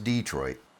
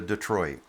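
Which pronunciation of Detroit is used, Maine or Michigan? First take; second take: Maine; Michigan. First: It uses the local Maine pronunciation. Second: It uses the Michigan city's pronunciation. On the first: It names the small town in Maine. "Here, this is Detroit" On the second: It names the big city in Michigan. "You want to go to Michigan? You can go to Detroit"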